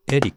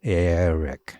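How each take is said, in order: First: Eric said as "Edi", lightly flapped, with a rise; Japanese-style Eric. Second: Eric said as "Er-rik", r across both syllables; Eric with double r. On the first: Contrasting the wrong reading. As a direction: say Eric the katakana way. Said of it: "as opposed to Eric". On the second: Teaching the three-beat method on a name. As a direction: linger on the r. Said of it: "two R's". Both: Shown as a demonstration.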